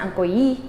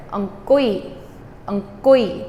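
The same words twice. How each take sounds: First: Ong kui with kui rising, the wrong way to say it; wrong stress. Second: Ong kui run together quickly, kui falling, reach the e fast; correct ong kui. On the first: Teacher shows students the wrong accent, rising kui. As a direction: show the mistake with a rising kui. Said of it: "so I don't wanna put the accent there". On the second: Teacher shows students the right way, quick falling kui. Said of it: "get to that E as fast as you can". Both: Shown as a demonstration.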